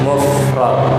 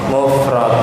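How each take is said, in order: Both takes have the same delivery.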